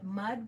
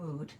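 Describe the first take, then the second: First: The vowel is short, as in bud. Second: The vowel is long, as in food. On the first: The speaker calls it wrong. "you might want to call it mud" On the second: The speaker calls it right. "it's pronounced mood"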